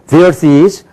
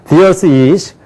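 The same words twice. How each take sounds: Both takes have the same delivery.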